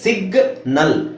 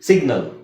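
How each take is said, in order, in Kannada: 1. ಎರಡು ಉಚ್ಚಾಂಶಗಳನ್ನು ವಿರಾಮದೊಂದಿಗೆ ಹೇಳಲಾಗುತ್ತದೆ. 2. ಎರಡು ಉಚ್ಚಾಂಶಗಳನ್ನು ಸರಾಗವಾಗಿ ಒಟ್ಟಿಗೆ ಹೇಳಲಾಗುತ್ತದೆ.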